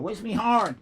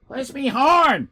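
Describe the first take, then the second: First: Said in the usual way. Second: Higher, louder, slow call of "horn". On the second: Real, not acted. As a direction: call "Where's me horn?" across the room, drawing out "horn". Calling out while searching.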